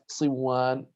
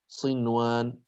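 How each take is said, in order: First: The n sound is merged into the w. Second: The n sound is clearly kept before w. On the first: The speaker calls it wrong. "لو أدغمنا يعني أصبحت صوان" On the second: The speaker calls it right. "فهنا لا يجوز أن ندغم"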